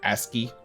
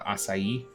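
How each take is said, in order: First: It is said like 'ask-ee', with two syllables. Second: It is said like 'ah-sigh-ee', rhyming with acai.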